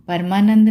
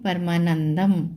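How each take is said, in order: First: The word ends without an m sound. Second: The word ends with an m sound. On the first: The speaker calls it wrong. "परमानंद नहीं पढ़ेंगे" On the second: The speaker calls it right. "म की आवाज आएगी"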